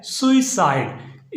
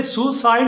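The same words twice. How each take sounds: First: "सुसाइड" as SU-i-side, with an i glide after su; correct pronunciation. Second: "सुसाइड" as SU-side, no i after su; the faulty soo-side for "सुसाइड"; mispronunciation. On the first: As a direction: say "सुसाइड" in three parts, su-i-side. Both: Shown as a demonstration. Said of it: "इसे सुसाइड नहीं पढ़ना".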